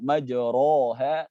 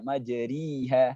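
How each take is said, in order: First: The vowel after r is an open a. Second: The vowel after r is a full i. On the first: "tidak boleh dibaca fathah" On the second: "tidak boleh dibaca kasrah"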